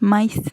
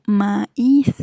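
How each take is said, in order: First: "maíz" as one syllable, máiz, stress on a; "maíz" squashed into a single beat, stress on the a; wrong diphthong. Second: "maíz" in two syllables, ma-ÍZ; "maíz" as ma, then a strong íz; stressed í, hiatus. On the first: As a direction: say "maíz" with a glided ai. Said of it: "No decimos maíz". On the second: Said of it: "hiatos acentuales". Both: Shown as a demonstration.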